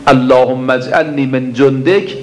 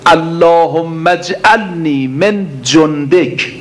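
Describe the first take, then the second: First: Said in the usual way. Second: Slow, drawn-out Arabic supplication, each word weighed; slow prayer recitation. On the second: Acted. Preacher reciting the supplication to the congregation, slow and drawn out. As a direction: intone the prayer slowly like a preacher.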